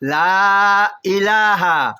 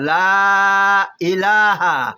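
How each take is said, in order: First: The vowels are stretched long, three counts each. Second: The same.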